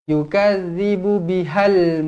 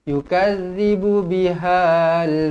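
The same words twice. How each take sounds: First: The vowel in 'bihal' is kept short. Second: The vowel in 'bihal' is drawn out long. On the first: The speaker calls it right. "dia akan pendek sebab mati terus dekat lam mati" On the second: The speaker calls it wrong. "Dia tidak jadi"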